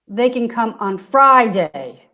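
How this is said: The stress is on the word Friday. Friday works, but no other day does. "So not on any other day"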